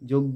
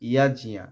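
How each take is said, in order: First: The word starts with 'j' and ends 'oggo'. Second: The word starts with 'y' and ends 'ajniya'. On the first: The speaker calls it wrong. "ই যোগ্য বলি না" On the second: The speaker calls it right. "আমরা বলি কি ইয়াজিয়া"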